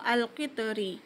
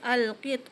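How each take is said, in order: First: The word ends with a final vowel sound. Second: The word stops without its final vowel sound. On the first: The word is read in full without stopping. "kalau kita baca penuh" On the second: The reader pauses at the end of the word. "kita berhenti di akhir kalimah"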